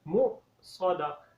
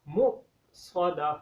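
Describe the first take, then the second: The two takes are said the same way.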